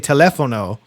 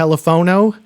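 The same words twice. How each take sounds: First: It is pronounced like the Spanish word teléfono. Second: It is pronounced in a non-Spanish, English way. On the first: The title is read as the Spanish word. "being in Texas, I want to say telefono ... what would be the pronunciation of the Spanish word" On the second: The title is read as not Spanish. "but the Spanish word is spelled with an F and not the P H. So maybe it's"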